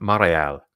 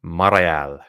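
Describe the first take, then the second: No difference in how they are said.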